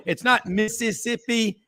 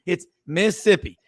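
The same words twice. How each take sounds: First: "Mississippi" said the long way, four syllables; "Mississippi" with every syllable, higher and set apart; wrong pronunciation. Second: "Mississippi" clipped short as miss-sippi; "Mississippi" run together in the local way; right pronunciation. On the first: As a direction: say "Mississippi" as mis-sis-sip-pi, the wrong way. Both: Shown as a demonstration. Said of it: "Notice that is two syllables".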